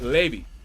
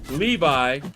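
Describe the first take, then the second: First: The name ends with an 'ee' sound. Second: The name ends with an 'eye' sound. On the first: The speaker calls it right. "but Levy" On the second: The speaker calls it wrong. "Not Levi"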